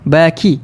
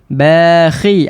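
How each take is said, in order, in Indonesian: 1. Konsonan di tengah adalah bunyi k biasa. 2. Konsonan di tengah adalah bunyi kh tenggorokan. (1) "Ataupun huruf kaf" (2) "kita nak perhatikan huruf kha ni"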